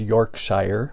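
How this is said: It is said the American way. "here in the U S we pronounce it as"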